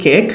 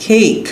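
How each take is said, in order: First: কেক the Bengali way, short pure e; everyday Bangla-style কেক; Bengali pronunciation. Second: কেক the English way, "kheyk" with a gliding vowel; higher-pitched model কেক with a puffed first k; English pronunciation. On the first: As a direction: say কেক with unaspirated k and no glide. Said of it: "বাংলায় বলি কেক". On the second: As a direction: say কেক as English cake, aspirated k. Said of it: "কিন্তু ইংলিশে". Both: Shown as a demonstration.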